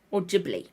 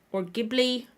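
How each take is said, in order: First: "Ghibli" pronounced JIB-lee, falling. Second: "Ghibli" pronounced GIB-lee. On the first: Vlogger giving up on which is right, Ghibli as JIB-lee. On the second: Vlogger trying another way, Ghibli as hard-g GIB-lee. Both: Shown as a demonstration. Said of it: "say it multiple different ways".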